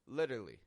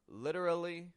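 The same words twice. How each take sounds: First: A syllable from the middle is left out. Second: Every syllable of the word is pronounced.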